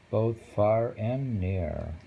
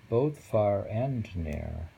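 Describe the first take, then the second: No difference in how they are said.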